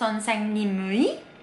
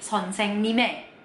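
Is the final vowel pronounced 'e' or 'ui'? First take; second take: ui; e. First: The ending is pronounced as 'ui'. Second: The ending is pronounced as 'e'. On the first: The speaker calls it wrong. "Terus bukan" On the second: The speaker calls it right.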